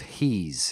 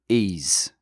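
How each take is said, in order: First: The initial H is pronounced. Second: The initial H is dropped. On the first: "instead of he's" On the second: "the Cockneys say ease"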